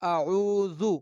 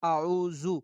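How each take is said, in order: First: The middle consonant sounds like a soft th. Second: The middle consonant sounds like a buzzing z. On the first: The speaker calls it right. "बल्कि" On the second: The speaker calls it wrong. "ये गलत है, सरासर गलत है"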